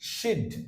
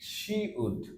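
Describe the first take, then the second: First: It is shortened into a single syllable. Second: It is said as two full words.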